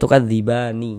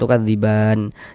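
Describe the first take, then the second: First: The word ends with a final vowel i. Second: The word ends on a silent final n. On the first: The speaker calls it wrong. "Jangan dibaca tukadzibani, jangan" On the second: The speaker calls it right. "kalau berwakaf di huruf nun kita baca tukadziban"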